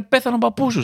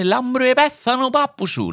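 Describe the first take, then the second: First: Said in the usual way. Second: Cheerful singsong Cypriot Greek; cypriot greek accent. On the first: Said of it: "Στα ελληνικά σου λένε". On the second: Shown as a demonstration. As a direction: say it brightly in a Cypriot lilt. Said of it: "Στα κυπριακά σου λένε".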